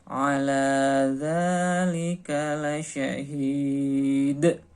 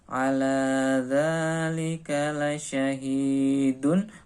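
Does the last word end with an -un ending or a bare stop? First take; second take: bare stop; -un ending. First: The last word stops on its final consonant. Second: The last word ends with a full -un ending. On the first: This is the reading once stopping is taught. "ini dibaca ala dzalika lasyahid" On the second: This is the reading before the level where stopping is taught. "sudah tidak lagi dibaca ala dzalika lasyahidun"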